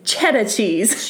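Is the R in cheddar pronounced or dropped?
dropped. It is said in a Maine accent, with the R dropped.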